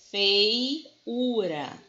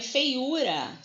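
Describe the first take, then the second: First: "feiura" drawn out, split as fei-ura; separado em sílabas. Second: Said in the usual way. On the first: Shown as a demonstration. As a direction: stretch "feiura", parting the diphthong "fei" from the "u". Repete a palavra separando ditongo e hiato. ("feiura" esticado, separando fei e ura)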